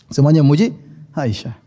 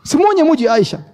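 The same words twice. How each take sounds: First: Said in the usual way. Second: First take lifted much higher in pitch; high emphatic. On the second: Shown as a demonstration. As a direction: ring out "Semuanya muji Aisyah" high and bright. Repeated line, first raised high.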